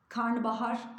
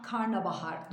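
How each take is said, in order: First: "karnabahar" with an ı, "karnıbahar"; the common mistake, "karnıbahar"; wrong pronunciation. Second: "karnabahar" with an a, "kar-na-ba-har"; the right way, "karnabahar"; correct pronunciation. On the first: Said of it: "Hep karıştırılır". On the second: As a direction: keep the second a in "karnabahar". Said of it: "karnabahar doğrusu". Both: Shown as a demonstration.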